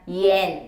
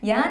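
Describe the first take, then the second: First: The vowel sounds like 'en'. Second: The vowel sounds like 'an'. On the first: The speaker calls it right. "너무 중요해요" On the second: The speaker calls it wrong. "얀 아니고"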